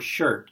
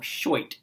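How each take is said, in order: First: It is said in a standard accent. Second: It is said in a 1930s American movie accent.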